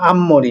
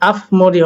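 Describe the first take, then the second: First: An m sound comes before the m. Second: A p sound comes before the m. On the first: The speaker calls it right. "কিন্তু হলো আম্মরি" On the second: The speaker calls it wrong. "আফমরি হওয়ার কথা ছিল"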